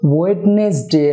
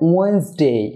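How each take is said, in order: First: The first d and middle e are pronounced. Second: The first d and middle e are dropped. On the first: The speaker calls it wrong. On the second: The speaker calls it right.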